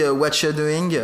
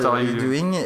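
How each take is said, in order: First: The word 'are' is dropped entirely. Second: The word 'are' is clearly pronounced. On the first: "comme quand tu dis « what you doing »" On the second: "au lieu de dire ouais. « what are you doing »"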